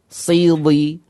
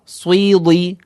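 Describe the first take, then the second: First: The first consonant has no w glide after it. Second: A w glide follows the first consonant. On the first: The speaker calls it right. "maka kita perhatikan suaranya melekat" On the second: The speaker calls it wrong. "Ucapan yang salah adalah sidi, nah, sidi, atau swili"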